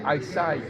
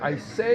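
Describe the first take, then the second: First: The second vowel sounds like 'eye'. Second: The second vowel sounds like 'ay'. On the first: The speaker calls it right. "ils devraient dire I sigh" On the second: The speaker calls it wrong. "Au lieu de dire I say"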